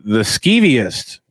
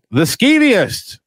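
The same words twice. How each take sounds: First: Said in the usual way. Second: Skeeviest drawn out slow and much higher; stretched skeeviest. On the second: Shown as a demonstration. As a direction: drag out skeeviest up high.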